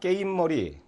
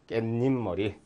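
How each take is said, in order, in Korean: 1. 'ip' 앞에 사이소리 n이 붙지 않습니다. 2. 'ip' 앞에 사이소리 n이 붙습니다. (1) "이상합니다" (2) "깻잎 머리 이렇게 돼야 되겠죠"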